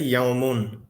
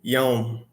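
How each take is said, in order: First: The word ends with a final 'un' sound. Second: The word ends without a final vowel. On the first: The speaker is continuing the sentence. "If we were continuing, we would say yaumun" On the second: The speaker is stopping at the end of a sentence. "if we're stopping. So we would just say yaum"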